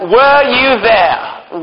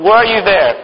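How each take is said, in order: First: Drawn-out, pointed question; slow challenge. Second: Said in the usual way. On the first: Acted. Teacher slowly challenges the kids, drawn-out pointed question. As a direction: stretch each word out slowly to challenge them.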